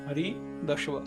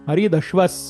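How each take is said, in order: First: The word ends on a plain vowel. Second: The word ends with an added s sound. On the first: "पहिला शब्द आहे हरिदश्व" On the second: "त्यामुळे त्याचा उच्चार होतो हरिदश्वस"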